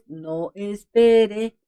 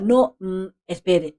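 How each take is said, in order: First: It is said without a pause after no. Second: There is a pause after no.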